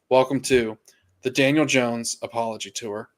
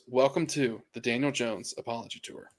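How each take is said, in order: First: It is said in a normal, full voice. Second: It is said in a soft, quiet voice.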